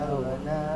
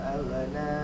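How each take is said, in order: Both takes have the same delivery.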